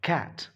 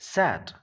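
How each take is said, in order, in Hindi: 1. इस शब्द की शुरुआत k की आवाज़ से होती है। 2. इस शब्द की शुरुआत s की आवाज़ से होती है। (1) "this is cat" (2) "this is not sat"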